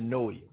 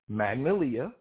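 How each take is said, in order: First: The first syllable is dropped. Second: The whole word is pronounced. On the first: "They don't even pronounce like the whole first three letters" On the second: "There's Magnolia"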